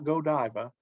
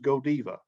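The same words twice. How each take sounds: First: The name is said in a non-Belgian pronunciation. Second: The name is said in the Belgian pronunciation. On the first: The speaker calls it wrong. "this is not Godiva" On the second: The speaker calls it right. "That is the way they pronounce it in Belgium"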